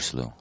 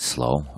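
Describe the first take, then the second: First: The vowel sounds like the one in 'shoe'. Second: The vowel sounds like the one in 'go'. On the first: "Is it slow or slough?" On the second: "Is it slow or slough?"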